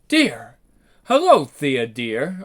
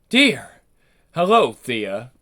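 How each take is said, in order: First: It is said in a higher voice. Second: It is said in a deep voice.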